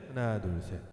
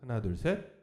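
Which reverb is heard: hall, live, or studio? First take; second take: hall; studio. First: The voice has a large hall reverb. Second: The voice has a studio-style reverb. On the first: "세 번째 홀" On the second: "스튜디오 모드"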